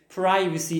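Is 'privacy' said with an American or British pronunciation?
American. It is said with an American pronunciation. "Privacy, American"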